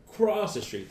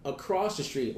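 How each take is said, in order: First: ACROSS THE STREET pitched up high; emphatic repeat. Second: Said in the usual way. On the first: Real, not acted. Repeats phrase with added emphasis.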